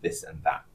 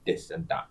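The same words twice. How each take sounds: First: The words start with a TH sound. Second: The words start with a D-like sound. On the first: "rather than this and that" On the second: "I don't put my tongue between my teeth"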